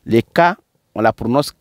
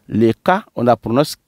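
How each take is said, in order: Both takes have the same delivery.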